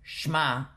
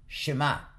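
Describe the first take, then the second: First: The sh and m join with no vowel. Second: A short vowel sounds between sh and m. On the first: The speaker calls it wrong. "We do not pronounce it shma" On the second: The speaker calls it right. "but rather"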